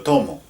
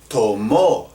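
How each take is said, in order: First: The stress is on the first syllable. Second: The stress is on the last syllable. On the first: It is happening now. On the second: It happened in the past.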